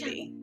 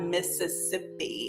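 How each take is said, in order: First: Several sounds of the word are dropped. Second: Every sound of the word is clearly said. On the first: This is how locals say it. The speaker calls it right. "We're missing a bunch of letters in the pronunciation" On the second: This is how outsiders say it. The speaker calls it wrong. "we don't pronounce it like that here. It's not Mississippi"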